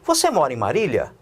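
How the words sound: It is said as a question, rising.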